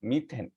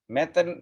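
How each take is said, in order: First: মিথেন said with "ee" in the first syllable; correct pronunciation demo. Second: মেথেন said with an open first vowel, "meh-then"; rejected pronunciation demo. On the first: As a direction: say মিথেন as "mee-then". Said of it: "আমরা বলবো মিথেন". (মিথেন, প্রথমে ই ধ্বনি দিয়ে উচ্চারণ) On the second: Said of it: "বলবো না". (মেথেন, প্রথমে এ ধ্বনি দিয়ে উচ্চারণ) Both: Shown as a demonstration.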